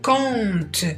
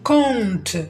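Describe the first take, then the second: Both takes have the same delivery.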